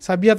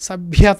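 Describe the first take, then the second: First: The consonant cluster is not aspirated. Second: The consonant cluster is clearly aspirated. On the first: This is how other singers pronounce it. "[name] [name]కి అన్నప్పుడు సభ్యత అంటారు" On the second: This is how one singer pronounces it, with full care. "ఆవిడ ఒత్తులు పలకటం సభ్యత అన్నారనుకోండి"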